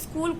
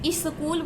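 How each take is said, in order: First: The word begins directly with the s sound. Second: An extra vowel is added before the s sound. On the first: The speaker calls it right. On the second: The speaker calls it wrong.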